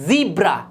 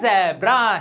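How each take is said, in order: First: The first vowel sounds like 'ee'. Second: The first vowel sounds like 'eh'. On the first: The speaker calls it right. "ये होता है ज़ीब्रा" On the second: The speaker calls it wrong. "बिल्कुल गलत"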